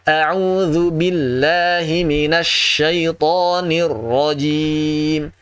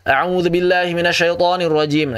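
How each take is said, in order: First: The doubled consonants are held calmly before moving on. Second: The doubled consonants are rushed through quickly. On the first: The speaker calls it right. "Harus santai aja. Yang tasydid itu ditahan dulu" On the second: The speaker calls it wrong. "ini tergesa-gesa yang tasydidnya"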